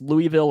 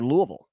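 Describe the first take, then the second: First: Three clear syllables in "Louisville", LOO-ee-vil. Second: Reduced vowels in "Louisville", LOO-uh-vul. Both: Shown as a demonstration. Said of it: "pronounced Louisville or Louisville".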